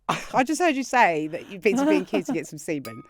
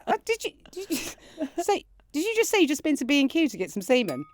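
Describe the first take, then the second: First: Said in the usual way. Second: Higher, fast teasing disbelief; incredulous. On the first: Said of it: "And I said". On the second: Retold or imitated. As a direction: push it up in giddy shock. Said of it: "I said".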